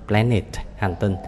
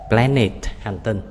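The two takes are said the same way.

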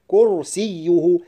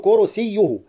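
First: The y sound is held and doubled. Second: The y sound is short and single. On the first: The speaker calls it right. "الصحيح كرسيه مع تشديد الياء" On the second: The speaker calls it wrong. "لا أقول كرسيه"

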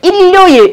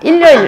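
First: It is said in a standard Seoul accent. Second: It is said in a Gyeongsang dialect accent.

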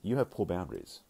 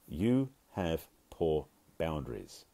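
First: The phrase is spoken at a normal pace. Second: The phrase is spoken more slowly.

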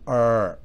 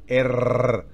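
First: The R is a smooth English R. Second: The R is rolled like a Spanish R. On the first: "en inglés es R" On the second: "en español la R es R"

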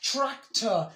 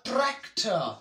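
First: The word starts with a ch-like sound. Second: The word starts with a plain tr sound. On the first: The speaker calls it right. "This TR will produce the sound of cha" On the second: The speaker calls it wrong. "so that's wrong"

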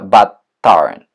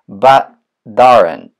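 First: The t in 'but' is a clear t. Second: The t in 'but' sounds like a d. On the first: The speaker calls it wrong. "вместо but aren't" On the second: The speaker calls it right. "мы произносим but aren't"

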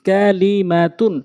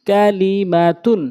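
No difference in how they are said.

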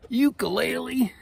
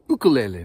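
First: The word is said a non-Hawaiian way. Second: The word is said the Hawaiian way. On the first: The speaker calls it wrong. "not ukulele" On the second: The speaker calls it right. "that's the way the people in Hawaii Islands, they say ukulele"

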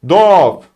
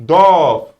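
The two takes are said the same way.

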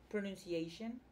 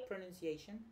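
Both takes have the same delivery.

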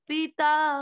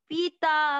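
First: The first vowel is stretched out long. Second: The first vowel is stretched out long.

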